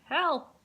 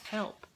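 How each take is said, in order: First: It is said loudly. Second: It is said quietly.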